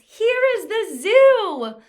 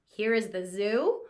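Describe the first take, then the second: First: It is said loudly and excitedly, like an exclamation. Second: It is said with a rising, questioning tune. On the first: It expresses strong feeling. "or an exclamation mark sentence" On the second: It asks something. "We wouldn't read it like it was a question mark sentence"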